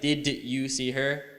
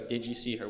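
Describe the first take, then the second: First: The d and y sounds stay separate. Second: The d and y blend into a j sound. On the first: The speaker calls it wrong. "We will never say" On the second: The speaker calls it right. "We say"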